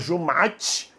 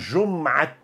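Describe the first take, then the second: First: The final t is heavy and exaggerated. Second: The final t is light and crisp. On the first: The speaker calls it wrong. "não vai dar certo" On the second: The speaker calls it right. "precisa fazer esse T seco"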